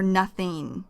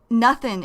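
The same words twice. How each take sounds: First: "nothing" said with its full ng ending; full -ing. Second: "nothing" said as nothin', ending in n; reduced -ing. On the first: Teacher gives learners the long form, "nothing" with full -ing. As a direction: give "nothing" its complete final -ing. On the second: Teacher shows learners the short form, "nothing" as nothin'. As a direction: drop the g at the end of "nothing". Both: Shown as a demonstration. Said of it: "is short for nothing".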